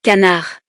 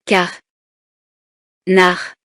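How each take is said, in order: First: Said in the usual way. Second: "Car. Nar." as two isolated syllables, long pause between. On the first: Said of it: "Je dis les mots". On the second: Shown as a demonstration. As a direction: break it apart: "Car", silence, "Nar". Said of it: "Je frappe les syllabes". («Car. Nar.» découpé en syllabes séparées par un silence)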